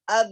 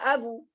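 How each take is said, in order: First: The b ends with a slight release, no vowel. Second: The b is followed by a full u vowel. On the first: The speaker calls it right. "Tapi sikit saja terbuka dia" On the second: The speaker calls it wrong. "Tidak abu"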